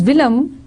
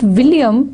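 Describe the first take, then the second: First: The second syllable sounds like 'lem'. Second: The second syllable sounds like 'yum'. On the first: This is the older, historical way of saying it. "it was Willem" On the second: This is the later, modern way of saying it. "it was not William"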